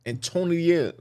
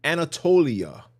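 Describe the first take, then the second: First: "Antonia" for Anatolia, middle syllable lost; stumbled pronunciation. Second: "Anatolia" in full, an-a-TOLE-ia; corrected pronunciation. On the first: Reader tripping over an unfamiliar place name, stumbled pronunciation. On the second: Reader repeating the name after a recording, corrected pronunciation. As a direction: sound out all of "Anatolia", copying the example. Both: Real, not acted. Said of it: "I can't even say it".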